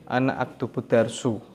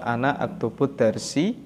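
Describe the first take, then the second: First: The last word ends in a u vowel. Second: The last word ends in an i vowel. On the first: "tidak dibaca" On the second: "tidak dibaca"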